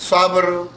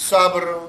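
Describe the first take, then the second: Both takes have the same delivery.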